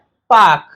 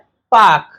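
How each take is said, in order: First: The r after the vowel is dropped. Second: The r after the vowel is dropped.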